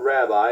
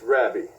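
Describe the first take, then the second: First: It is said with the usual English pronunciation. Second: It is said with a Hebrew pronunciation. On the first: The speaker calls it wrong. "it's not rabbi" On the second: The speaker calls it right. "it's Rabbi in Hebrew"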